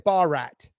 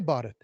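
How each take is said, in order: First: The name is said with an anglicized Western pronunciation. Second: The name is said with an Indian pronunciation. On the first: "They're going to say Barat, and that doesn't sound nice" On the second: "they're not going to say Bharat"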